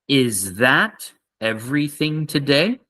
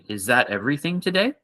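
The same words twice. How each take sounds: First: It is said slowly and carefully. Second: It is said faster and naturally.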